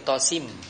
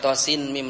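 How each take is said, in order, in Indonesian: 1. Bunyi n melebur ke dalam m. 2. Bunyi n diucapkan sebelum m. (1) "tapi tosim" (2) "Bukan tosin mim lagi"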